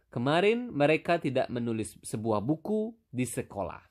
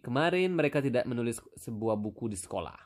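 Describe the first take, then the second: First: The sentence is spoken at a moderate pace. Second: The sentence is spoken quickly. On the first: The speaker calls it right. "So normal again, normal" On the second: The speaker calls it wrong. "That's maybe quite fast. Maybe a little bit too fast"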